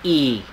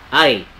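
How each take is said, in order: First: The letter name is said the Norwegian way. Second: The letter name is said the English way. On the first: "But in Norwegian, it is pronounced as E" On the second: "In English, it is pronounced as I"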